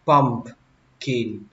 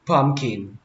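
First: "pumpkin" split slowly with the middle p released; P fully sounded. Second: "pumpkin" run together as "pum-kin"; P left out. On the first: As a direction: sound the p, "pump-kin", with a gap. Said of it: "phải có chữ P nữa". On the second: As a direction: drop the middle p in "pumpkin". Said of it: "mình không cần chữ P luôn". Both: Shown as a demonstration.

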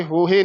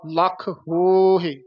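First: ਹੋਹੇ with a full "he" ending; mistaken e ending. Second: ਹੋਹੇ as a long "hooo-hi"; drawn-out o, short ending. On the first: Teacher warning against this form, clear e ending. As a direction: say ਹੋਹੇ quickly as "ho-he". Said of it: "ਇਹ ਹੋਹੇ ਨਹੀਂ ਕਹਿਣਾ". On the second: Teacher modelling the line, slow long first vowel. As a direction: stretch the first vowel of ਹੋਹੇ slowly, release on h. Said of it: "ਹਾਹੇ ਤੇ ਆਵਾਜ਼ ਛੱਡ ਦੇਣੀ ਆ". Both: Shown as a demonstration.

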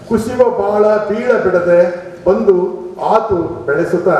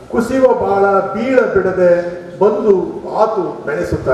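Both takes have the same delivery.

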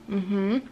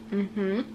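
No difference in how they are said.

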